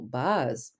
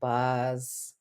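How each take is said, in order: First: It sounds amazed and admiring. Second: It sounds dry and sarcastic. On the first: Someone did something incredible. "That surprise can be positive, like, wow" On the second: Someone's bragging turned out to be false. "But it can also be sarcastic"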